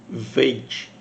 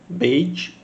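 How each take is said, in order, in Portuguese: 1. Começa com som de v. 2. Começa com som de b. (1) "um som de V" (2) "o som de B"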